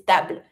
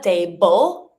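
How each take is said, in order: First: "table" said the French way, short A, B and L joined. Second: "table" said the English way, like tay-bul; English-style "table"; wrong English table. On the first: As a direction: say "table" the French way, tight ending. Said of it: "it's table". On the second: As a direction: say "table" as an English speaker would. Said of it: "So it's not table". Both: Shown as a demonstration.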